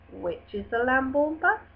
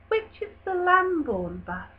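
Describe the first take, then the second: First: The voice rises at the end. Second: The voice falls at the end. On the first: The speaker calls it wrong. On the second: The speaker calls it right.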